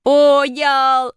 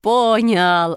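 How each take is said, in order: First: High, loud, long-held exclamation; triumphant cry. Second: Pleased, drawn-out cry at near-usual pitch; delighted exclamation. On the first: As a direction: call it out high and stretched in delight. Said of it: "закричал Шишкин". (торжествующий протяжный крик) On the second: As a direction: stretch it out with contained joy. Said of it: "обрадовался Шишкин". (радостно, протяжно) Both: A narrator's reading.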